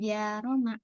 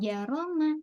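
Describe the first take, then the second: First: The first vowel is drawn out long. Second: The first vowel is kept short. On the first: The speaker calls it wrong. "jangan jaroma" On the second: The speaker calls it right. "Janya pendek"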